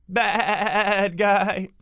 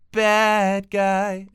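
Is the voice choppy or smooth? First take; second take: choppy; smooth. First: The words are chopped with stuttering interruptions. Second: The words are said smoothly without interruptions. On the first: "it chops up the waveforms in your voice, so there's interruptions in it" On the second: "instead of bad guy"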